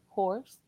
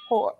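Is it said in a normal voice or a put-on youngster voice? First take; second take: normal; put-on youngster. First: It is said in his normal voice. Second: It is said in a put-on youngster voice.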